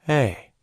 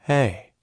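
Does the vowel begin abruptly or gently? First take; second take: gently; gently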